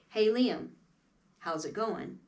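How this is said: The words flow together in one connected phrase. The speaker calls it right. "That's how we phrase things in music"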